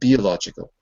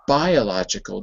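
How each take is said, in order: First: The first vowel is a short ih sound. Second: The first vowel sounds like the letter name. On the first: The speaker calls it wrong. "not biological" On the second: The speaker calls it right. "It's bi because bi is a separate syllable and the vowel ends the syllable"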